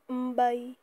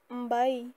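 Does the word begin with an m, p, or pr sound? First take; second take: m; m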